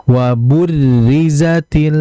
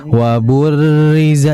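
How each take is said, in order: First: Slow wa burrizatil with a light trilled r; correct: thin ro in burrizatil. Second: Wa burriza with a thick ro; wrong: thick ro in burriza; heavy ro. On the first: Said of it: "ada sedikit hentakan". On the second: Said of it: "jadi jangan dibaca". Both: Shown as a demonstration.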